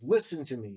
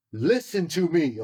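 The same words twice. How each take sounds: First: Said in the usual way. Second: Slow, loud and higher "Listen to me"; "Listen to me" dragged out, loud and commanding; stern command. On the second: Retold or imitated. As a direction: lean on "Listen to me" like a firm order down the phone. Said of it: "like, on the phone".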